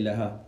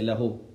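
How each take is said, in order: First: "laha" ending in an open a sound; laha for sentence. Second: "lahu" ending in a clear u sound; lahu for statement. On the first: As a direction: say "laha" with a final a, la-HA. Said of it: "If you say al-jumla, you say laha". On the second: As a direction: say "lahu" with a final u, la-HU. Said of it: "If you say the qawl, you say lahu". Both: Shown as a demonstration.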